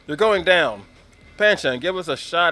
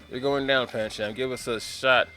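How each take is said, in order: First: The pause comes before Pancham. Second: The pause comes after Pancham.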